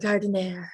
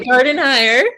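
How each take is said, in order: First: The name ends with a short 'ner' sound. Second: The name ends with a 'hire' sound. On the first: The speaker calls it wrong. "not even the right way" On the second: The speaker calls it right. "We pronounce it garden hire"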